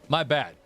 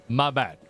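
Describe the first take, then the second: The two takes are said the same way.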